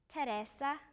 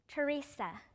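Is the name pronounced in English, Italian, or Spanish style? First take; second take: Italian; English. First: The name has an Italian pronunciation. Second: The name has an English pronunciation. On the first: "이태리어로는" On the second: "영어로"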